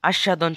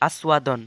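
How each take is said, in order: First: Said in the usual way. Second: আস্বাদন with s and a w glide, as-wa-don; Sanskrit pronunciation. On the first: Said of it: "শব্দের". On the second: Shown as a demonstration. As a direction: sound the W inside আস্বাদন. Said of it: "সংস্কৃত উচ্চারণ হবে". (আস্বাদন, ব-ফলায় ওয়-ধ্বনি)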